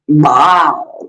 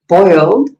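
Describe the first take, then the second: First: The vowel sounds like 'eye' in 'bile'. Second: The vowel sounds like 'oy' in 'boy'. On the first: This is how someone else says it. "She says biled" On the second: This is how the speaker's own group says it. "we say boiled"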